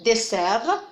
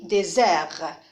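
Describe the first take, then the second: First: "dessert" with a hissed s in the middle, dé-ssert. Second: "désert" with a buzzed z in the middle, dé-zert; careful z sound in the middle of "désert". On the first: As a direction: say "dessert" with unvoiced s, as the mistake to avoid. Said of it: "on ne dit pas dessert". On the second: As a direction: say "désert" slowly with voiced z for the s. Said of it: "on dit désert". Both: Shown as a demonstration.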